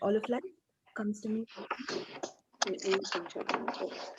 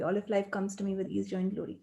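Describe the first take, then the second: First: It is said with lively, felt energy. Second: It is said flatly, without much energy. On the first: The words are meant and felt. The speaker calls it right. "It's the energy with which you say it" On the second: The words are just recited without meaning them. The speaker calls it wrong. "we don't just say like"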